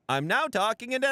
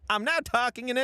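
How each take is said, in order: First: It is spoken in an Irish accent. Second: It is spoken in an Italian accent. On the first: "You want to hear Irish? I'm now talking in an Irish accent" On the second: "Do you want to hear Italian? I'm now talking in an Italian accent"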